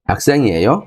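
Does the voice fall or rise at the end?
rise. The voice rises at the end, as a question.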